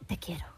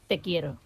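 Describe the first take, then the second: First: It is said softly and intimately. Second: It is said plainly, without intimacy.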